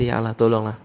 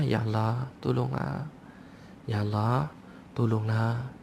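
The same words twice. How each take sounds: First: Easy, matter-of-fact request; everyday untroubled delivery; casual comfortable prayer. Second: Hushed, drawn-out plea; lingering, subdued cry for help; pleading in hardship. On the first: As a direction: pray as if nothing is wrong. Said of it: "Tengah senang kita kata". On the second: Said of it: "Tapi kalau tengah susah". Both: Acted.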